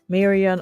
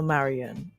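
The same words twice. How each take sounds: First: The first syllable sounds like 'may'. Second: The first syllable sounds like 'mah'. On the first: "is it May" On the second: "or is it Ma?"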